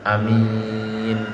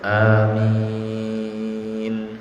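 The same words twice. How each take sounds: First: The vowel is said short and clipped. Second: The vowel is drawn out to two beats. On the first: "boleh juga dipendekkan" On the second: "pada umumnya dua harokat"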